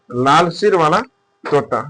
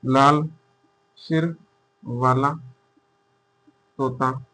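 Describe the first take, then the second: First: Said in the usual way. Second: लाल सिर वाला तोता, each word set apart by long pauses; slow dictation. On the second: Shown as a demonstration. (धीरे-धीरे लिखवाते हुए, हर शब्द अलग)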